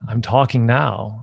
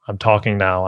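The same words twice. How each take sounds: First: It is said with a smile, energetically. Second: It is said without a smile, flat.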